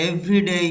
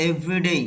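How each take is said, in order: The two takes are said the same way.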